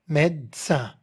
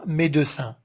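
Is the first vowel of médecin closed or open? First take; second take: open; closed. First: The first vowel is an open e. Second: The first vowel is a closed e. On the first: The speaker calls it right. "on a mis le e ouvert" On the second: The speaker calls it wrong. "on ne dit pas médecin"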